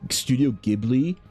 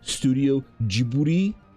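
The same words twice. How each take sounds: First: The name is said with English-style pronunciation. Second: The name is said with Japanese-style pronunciation. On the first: The speaker calls it wrong. "It's not Studio Ghibli" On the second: The speaker calls it right. "It's Studio Ghibli"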